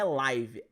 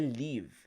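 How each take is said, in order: First: The vowel sounds like 'eye'. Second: The vowel sounds like 'it'. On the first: The speaker calls it wrong. "a pronúncia não é live" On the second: The speaker calls it right. "é live"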